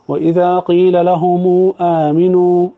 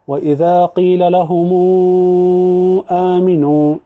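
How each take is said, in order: First: The long vowel before aamanu is held briefly. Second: The long vowel before aamanu is held longer. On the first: "القصر" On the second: "التوسط"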